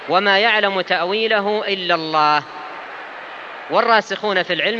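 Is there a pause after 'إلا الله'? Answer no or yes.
yes. There is a pause after 'إلا الله'. Only God knows its ultimate reality. "قراءتان من حيث الوصل والوقف"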